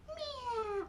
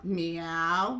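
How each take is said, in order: First: High, soft puppet meow; tiny kitty mew in a character voice; Mimi. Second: Lower-pitched cat call; low meow. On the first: Mimi does the cat sound, high soft mew. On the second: Storyteller redoes the puppet's cat sound, low meow. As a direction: meow deep in your own register. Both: Acted. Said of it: "Sometimes I forget if I'm Mimi or Ellen".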